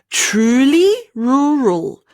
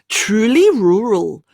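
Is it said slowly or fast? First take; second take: slowly; fast. First: It is said slowly. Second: It is said faster.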